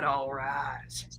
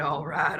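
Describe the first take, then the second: First: Whispering. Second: Said in the usual way. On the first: Shown as a demonstration. Repeated, third take whispered.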